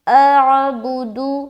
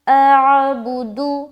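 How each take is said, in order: No difference in how they are said.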